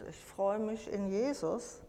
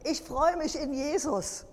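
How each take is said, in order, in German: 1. Sie wird flach gesprochen, ohne sichtbare Freude. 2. Sie wird mit lebhafter, freudiger Begeisterung gesprochen.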